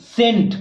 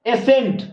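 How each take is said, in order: First: सेंट with a silent C, starting straight on s; correct pronunciation. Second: एसेंट with a full e sound before the s; wrong pronunciation. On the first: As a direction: say सेंट with no e sound before it. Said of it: "सी को हटाने के बाद हमको क्या बचेगा". (सेंट को सही उच्चारण में, C को मौन रखकर) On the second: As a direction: read एसेंट as if the S and C were both sounded. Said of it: "एसेंट नहीं बोलेंगे". (एसेंट को गलत उच्चारण में, शुरू में ए लगाकर) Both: Shown as a demonstration.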